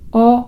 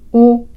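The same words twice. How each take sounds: First: The vowel sounds close to an a. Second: The vowel sounds close to a u. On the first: "ちょっとあに近いお" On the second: "ちょっとうに近いお"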